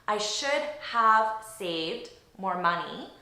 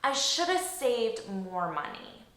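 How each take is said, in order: First: Should have is said as two full words. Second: Should have is reduced to one word, shoulda. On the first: "So really, it's should have saved" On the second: "naturally, I'm going to pronounce this as shoulda"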